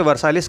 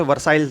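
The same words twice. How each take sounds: First: वर्साइलिस with a final "-lis" syllable; वर्साइलिस, ending in a voiced "lis"; pronunciation variant वर्साइलिस. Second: वर्साइल ending on the "l", no "-is"; वर्साइल, final syllable "sail"; pronunciation variant वर्साइल. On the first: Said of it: "कुछ लोग इसे वर्साइलिस कहते हैं". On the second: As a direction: say वर्साइल to rhyme with "smile". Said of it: "कुछ लोग इसे वर्साइल कहते हैं". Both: Shown as a demonstration.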